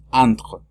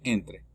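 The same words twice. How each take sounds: First: "entre" starting with nasal "an", throaty R; French entre. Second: "entre" with a clear E at the start; Spanish-style entre. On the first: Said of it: "la primera E se dice A". (entre a la francesa, con an) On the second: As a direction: read "entre" as the Spanish word. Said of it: "Entre es igual que en español". (entre dicho como en español) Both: Shown as a demonstration.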